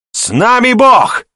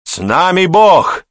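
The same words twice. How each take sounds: First: Very high, loud, drawn-out bellow; roared war cry. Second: High, loud, slow crowd cheer; joyful roar. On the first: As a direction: roar the slogan to lead the crowd. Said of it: "вновь рявкнул он". (рявкнуть боевой клич) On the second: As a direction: roar it back gladly as a whole garrison. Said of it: "повторили радостным рёвом все". (радостный рёв) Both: A narrator's reading.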